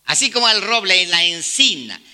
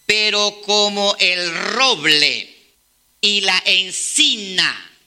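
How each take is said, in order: First: Said in the usual way. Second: Slow, drawn-out solemn reading; solemn scripture reading. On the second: Acted. Preacher reading Isaiah to the church, slow and solemn. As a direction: let each word of the verse land slowly.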